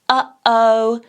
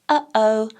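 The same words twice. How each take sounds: First: The vowels start with a hard, forceful catch. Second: The vowels start with a soft, gentle catch. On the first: "a bigger, harsher glottal" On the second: "a very light"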